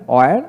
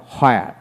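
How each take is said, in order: First: অয়ের begun on a rounded vowel, no h. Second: হয়ার begun with an audible h; sounded H. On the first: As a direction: say অয়ের as "o-er", for "where". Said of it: "আমেরিকানে অ উচ্চারিত". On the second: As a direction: say হয়ার as "ho-ar", for "where". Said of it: "ব্রিটিশে হ উচ্চারিত হয়". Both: Shown as a demonstration.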